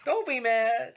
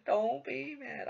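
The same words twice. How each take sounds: First: Laughing through "Don't be mad!", slow and high. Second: "Don't be mad." high and slow, laugh gone; a teasing, sing-song reassurance; mock soothing. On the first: Acted. Teasing a salty opponent, laughing. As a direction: tease them while giggling. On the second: Teasing a salty opponent again, mock soothing.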